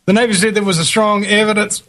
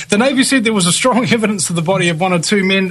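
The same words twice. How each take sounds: First: Put-on Mexican accent. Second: Said in the usual way. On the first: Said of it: "I love doing a Mexican accent".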